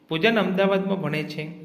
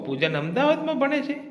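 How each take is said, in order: First: It is said with a flat stating tune. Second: It is said with an exclaiming, surprised tune. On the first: The speaker simply gives information. "વિધાન વાક્ય" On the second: The speaker is surprised by this fact. "ઉદ્ગાર વાક્ય"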